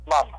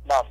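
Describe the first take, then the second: No difference in how they are said.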